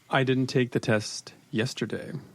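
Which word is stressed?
yesterday. The stress is on "yesterday".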